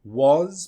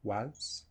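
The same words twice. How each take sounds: First: WAS said full, long and loud; stressed WAS with a clear, full vowel; strong form. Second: WAS reduced to a short, soft schwa "wuhz"; low, quick, unstressed "was"; weak form. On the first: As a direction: give WAS its whole vowel. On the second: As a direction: shrink WAS right down. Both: Shown as a demonstration. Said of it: "Was becomes was".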